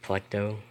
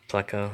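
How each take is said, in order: First: The word has a t sound before the final o. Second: The word has no t sound before the final o. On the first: This is the speaker's own habitual way of saying it. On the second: This is how most other people say it.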